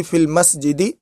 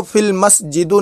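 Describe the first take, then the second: First: मस्जिदी ending in an "i" sound; correct ending, -i. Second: मस्जिदु ending in a short "u" sound; wrong ending, -u. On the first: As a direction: say मस्जिदी with a final i vowel. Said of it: "बल्कि फिल मस्जिदी पढ़ेंगे". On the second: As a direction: say मस्जिदु with a final u vowel. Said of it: "नहीं पढ़ेंगे बल्कि". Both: Shown as a demonstration.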